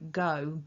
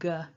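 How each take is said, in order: First: The word has a full, clear vowel. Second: The word has a reduced schwa vowel.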